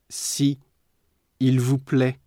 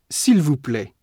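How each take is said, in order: First: The vowel of 'si' is kept before 'il'. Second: The vowel of 'si' is dropped before 'il'.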